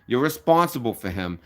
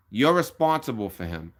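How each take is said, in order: Both takes have the same delivery.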